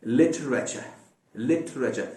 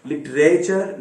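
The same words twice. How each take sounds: First: लिटरेचर ending in a plain schwa, no r; correct pronunciation. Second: लिटरेचर with the final r sounded; the mistaken r-ending लिटरेचर; wrong pronunciation. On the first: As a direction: say लिटरेचर with the r dropped. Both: Shown as a demonstration. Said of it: "लिटरेचर नहीं".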